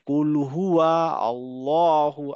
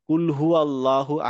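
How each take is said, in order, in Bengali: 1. দ্বিতীয় শব্দটি 'wa' ধ্বনিসহ পুরোটা উচ্চারিত হয়। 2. দ্বিতীয় শব্দটি সংক্ষেপে 'hu' হিসেবে উচ্চারিত হয়। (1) "এখানে একটা ওয়া আছে" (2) "আমরা যখন চোখ বন্ধ করে পড়ি তখন পড়ি"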